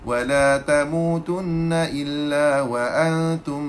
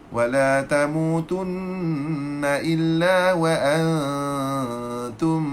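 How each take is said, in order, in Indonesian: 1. Dengung hidung dipotong pendek. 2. Dengung hidung ditahan panjang sepenuhnya. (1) "Tak cukup harakat" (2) "Kena dengung baik cukup lagi"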